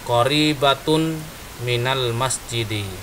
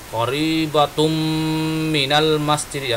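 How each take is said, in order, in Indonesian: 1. Bunyi n akhir tetap terpisah dan jelas. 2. Bunyi n akhir menyatu dengan m setelahnya. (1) "kita ucapkan saja sesuai dengan kaidah-kaidah bahasa Arabnya" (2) "kalau baca tajwid kan ada, ... idgham"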